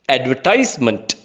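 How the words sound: It is said in an American English accent.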